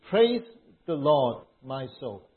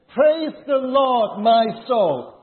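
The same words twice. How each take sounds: First: It is read in a calm, ordinary way. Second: It is read with more excitement and energy.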